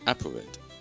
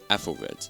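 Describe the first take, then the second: First: The middle consonant is a p sound. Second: The middle consonant is a th sound. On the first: The speaker calls it wrong. "you're probably thinking that this is pronounced as Applered" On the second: The speaker calls it right. "the correct way to say this word is Athelred"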